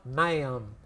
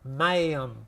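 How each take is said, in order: First: It is said with a drawn-out Southern twang. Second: It is said with a drawn-out Southern twang.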